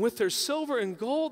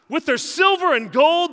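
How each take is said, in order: First: It is read in a hurt, jealous tone. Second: It is read in a harsh, angry tone. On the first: God feels hurt and betrayed. "Read it as if I'm a jealous God" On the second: God is furious and punishing. "That sounds like an angry God"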